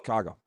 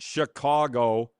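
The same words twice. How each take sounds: First: The word is squeezed into one syllable. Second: The word is said with all three syllables. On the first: This is how locals say it. The speaker calls it right. "it's one syllable" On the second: This is how outsiders say it. The speaker calls it wrong. "It's not Chicago"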